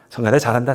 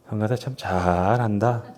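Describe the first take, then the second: First: It is said as sincere praise. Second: It is said sarcastically, meaning the opposite.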